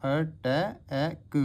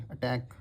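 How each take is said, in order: First: अटैक stretched very slowly, the ए held long; teacher stretching अटैक for the class; drawn-out demo. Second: Said in the usual way. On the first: Shown as a demonstration. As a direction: say अटैक slowly so every vowel is heard. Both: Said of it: "आगे पीछे दोनों side".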